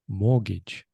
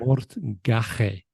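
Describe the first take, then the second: First: It is said the usual English way. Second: Every letter is sounded out as spelled. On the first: The speaker calls it right. "But it isn't. It's mortgage" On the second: The speaker calls it wrong. "if you were pronouncing it in Spanish pronunciation"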